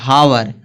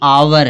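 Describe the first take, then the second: First: The word begins with an h sound. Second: The word begins directly with a vowel. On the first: The speaker calls it wrong. "जबकि यह हावर नहीं है" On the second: The speaker calls it right. "यह आवर है"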